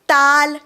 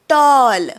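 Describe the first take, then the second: First: The vowel is an open, unrounded 'ah'. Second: The vowel is a rounded 'aw'. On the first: The speaker calls it wrong. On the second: The speaker calls it right.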